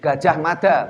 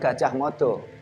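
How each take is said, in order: First: The vowels in the second word are 'a' sounds. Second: The vowels in the second word are 'o' sounds. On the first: This is the old Javanese reading without the O vowel. The speaker calls it right. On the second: This is the later reading with the O vowel. The speaker calls it wrong. "bukan Gajah Modo"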